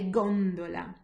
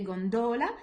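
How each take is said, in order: First: The stress is on the first syllable. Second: The stress is on the second syllable. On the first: The speaker calls it right. "I'm putting the stress more on the first one rather than the second" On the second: The speaker calls it wrong. "I don't say gondola"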